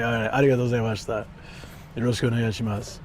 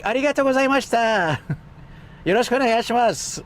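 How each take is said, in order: First: Lower, fast polite Japanese. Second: Very high, bright-pitched polite Japanese. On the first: Streamer showing his lowered Japanese voice, quick. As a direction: pull the Japanese down low. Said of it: "I had to lower it manually". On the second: Streamer imitating his old high-pitched Japanese, very high. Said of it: "My Japanese was really high too". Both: Retold or imitated.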